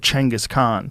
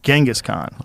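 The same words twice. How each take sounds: First: The name starts with a 'ch' sound. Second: The name starts without a 'ch' sound. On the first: This is the original form of the name. The speaker calls it right. "languages that didn't have cheng. And they didn't have that sound" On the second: This is the form altered through translation. The speaker calls it wrong.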